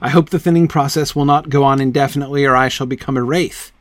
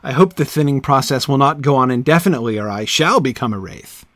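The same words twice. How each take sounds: First: The stress falls on the word wraith. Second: The stress falls on the word shall.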